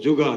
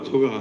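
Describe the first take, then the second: The two takes are said the same way.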